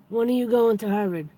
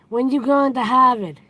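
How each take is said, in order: First: It is said in a neutral accent. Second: It is said in a Boston accent.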